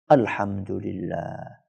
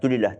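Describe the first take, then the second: First: It is said slowly and fully, with feeling. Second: It is said quickly and clipped short. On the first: The praise is said with full devotion. The speaker calls it right. "dengan penuh penghayatan yang baik" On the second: The praise is said carelessly, just to finish. The speaker calls it wrong. "Karena pengen cepat selesai"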